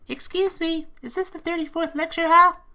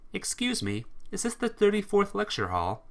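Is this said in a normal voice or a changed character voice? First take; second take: changed; normal. First: It is said in a changed character voice. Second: It is said in the reader's normal voice.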